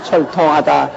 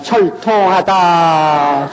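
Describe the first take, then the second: First: Said in the usual way. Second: 철통하다 drawn out very slowly; mock ghost wail. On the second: Preacher mimics a Jirisan ghost, slow wail. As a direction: draw out 철통하다 like a mourning ghost. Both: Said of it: "지리산 쪽에 가면".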